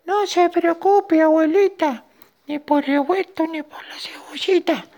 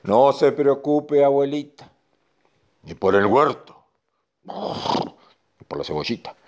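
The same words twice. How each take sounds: First: Tiny ant voice. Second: Reassuring bull. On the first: Ant telling grandma not to worry, tiny reassuring squeak. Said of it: "le dijo la hormiga". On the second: Bull telling grandma not to worry, measured reassurance. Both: Acted.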